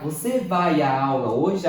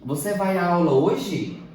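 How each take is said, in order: First: Você vai à aula hoje? louder, with a clear rise at the end; louder rising question tune on Você vai à aula hoje?. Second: Você vai à aula hoje? with stress on vai and a falling end; teacher's question demo, vai stressed; question intonation. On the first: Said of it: "A forma como nós dizemos as palavras". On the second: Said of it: "Eu estou a perguntar". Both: Shown as a demonstration.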